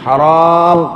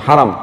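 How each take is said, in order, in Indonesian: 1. Vokal kedua diucapkan panjang. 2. Vokal kedua diucapkan pendek. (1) "Kalau ha ra alif mim haram, artinya dilarang" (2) "Kalau ha ra mim haram, artinya dimuliakan, dibacanya langsung haram"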